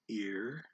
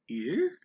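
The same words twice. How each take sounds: First: The pitch stays level in the middle range. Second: The pitch rises from middle to high. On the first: "would be tone five" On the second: "that's a tone two because it rises"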